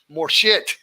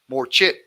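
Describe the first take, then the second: First: The second word begins with an sh sound. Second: The second word begins with a ch sound. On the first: "you hear Thai people say it sounds like more shit" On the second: "We say ch, ch, more chit"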